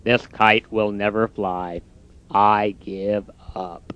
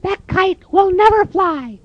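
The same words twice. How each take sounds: First: Low, soft, slow defeated voice; glum Toad. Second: Very high, squeaky, slow bird voice; mocking robins. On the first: Acted. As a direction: drag out the giving up. Toad's voice. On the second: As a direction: tease him from the bush.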